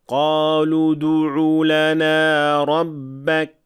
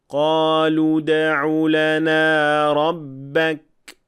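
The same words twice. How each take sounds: First: The d carries a faint u vowel. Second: The d is a clean bounce without vowel. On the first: The speaker calls it wrong. "We'll first hear the mistake" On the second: The speaker calls it right. "and then the correction"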